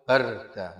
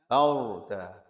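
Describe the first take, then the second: First: The r sound is light and thin. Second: The r sound is heavy and thick. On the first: The speaker calls it wrong. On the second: The speaker calls it right.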